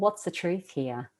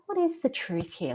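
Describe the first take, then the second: First: The question sounds harsh and judgmental. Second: The question sounds gentle and supportive. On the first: The listener is being criticised. The speaker calls it wrong. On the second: The listener is being encouraged. The speaker calls it right.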